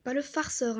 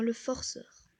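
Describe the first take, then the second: First: « farceur » avec un a ouvert, à écarter; mauvaise prononciation. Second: « forceur » avec un o net; bien appuyer le o de « forceur »; bonne prononciation. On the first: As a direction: dire « farceur » comme le mot à éviter. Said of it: "hein, le forceur". (« farceur » prononcé avec a, pour le contraste) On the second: (« forceur » dit avec o, pour corriger) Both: Shown as a demonstration.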